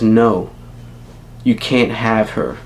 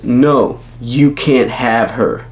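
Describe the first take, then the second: First: It is said quietly. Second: It is said loudly.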